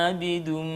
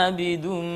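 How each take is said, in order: Both takes have the same delivery.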